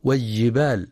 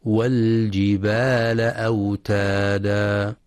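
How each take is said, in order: First: والجبال with the lam swallowed into the jim; merged lam error. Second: Slow chanted والجبال with the lam clearly sounded; والجبال with an unmerged lam, long vowels. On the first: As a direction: say والجبال as "waj-jibal". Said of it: "فلا يدغمها". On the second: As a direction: recite والجبال as "wal-jibal", lam distinct. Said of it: "لإظهار اللام القمرية". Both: Shown as a demonstration.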